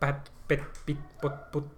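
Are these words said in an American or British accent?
British. A British accent with crisp, clipped p and t.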